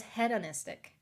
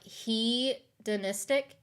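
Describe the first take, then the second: First: "hedonistic" begun with a short HED; short-E pronunciation. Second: "hedonistic" begun with a long HEE; long-E pronunciation. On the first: Telling viewers her own version, "hedonistic" with a short eh. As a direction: say "hedonistic" as hed-uh-NIS-tik. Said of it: "I thought it was". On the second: Trying out a viewer's pronunciation, "hedonistic" with a long hee. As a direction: say "hedonistic" as hee-duh-NIS-tik, drawn out slowly. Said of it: "Is it he?". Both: Shown as a demonstration.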